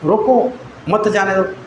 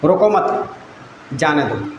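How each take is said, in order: First: The pause comes after the word 'roko'. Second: The pause comes after the word 'mat'. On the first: Stop the person; do not let them go. "अब मैं रोको पर रुक गया" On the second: Do not stop the person; let them go. "अभी रोको मत, वहाँ पर मैं रुक गया"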